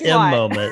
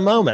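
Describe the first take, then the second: First: A separate 'em' sound comes before 'moment'. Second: It is said as plain 'moment' alone. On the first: The speaker calls it wrong. "Not the M Moment" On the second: The speaker calls it right. "It's the Moment"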